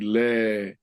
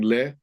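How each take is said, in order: First: The vowel is drawn out long. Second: The vowel is short. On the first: The speaker calls it right. "You drag it out" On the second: The speaker calls it wrong. "instead of saying le"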